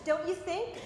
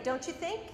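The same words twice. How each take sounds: First: Don't you think? with a rising, pleading tune on you; a hedging, unsure tag question. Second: Don't you think? tacked on with a rise on think; tag question. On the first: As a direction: lift "you" and rise at the end, seeking approval. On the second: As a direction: end "think" going up, unsure. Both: Shown as a demonstration. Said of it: "Tag questions".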